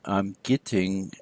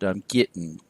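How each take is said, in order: First: The final g sound is pronounced. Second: The final g sound is dropped. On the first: "Instead of saying" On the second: "dropped the final G"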